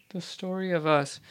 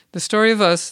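First: Soft, half-voiced, checking the title under her breath; reminding herself of the song name quietly; muttered to self. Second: Higher and louder, proclaiming the title; announced. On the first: Host checks title aloud before announcing, muttered. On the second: Host announces the episode's song to listeners, proclaimed. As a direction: present it like a show host. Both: Real, not acted.

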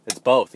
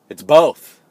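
First: Said in the usual way. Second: A triumphant shout of the answer. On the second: Real, not acted. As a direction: announce it like a winner. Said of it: "punchline shouted".

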